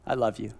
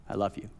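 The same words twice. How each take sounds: First: Soft repeat. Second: Fading whisper. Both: Retold or imitated. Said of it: "repeated love fading".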